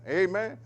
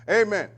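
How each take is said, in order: First: "Amen" with a rising, asking end; questioning Amen. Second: "Amen" loud and high, falling at the end; affirming Amen. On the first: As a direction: lift "Amen" into a question seeking agreement. Asks listeners for agreement. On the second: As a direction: answer firmly with a falling "Amen". Answers own question firmly. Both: Real, not acted.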